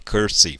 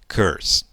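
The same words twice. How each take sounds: First: An extra vowel sound follows the final s. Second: The word ends on the s, no vowel. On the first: The speaker calls it wrong. "não fale curse" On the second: The speaker calls it right. "fale curse"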